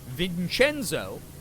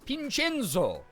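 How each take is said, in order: First: The name begins with a V sound. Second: The name begins with a B sound.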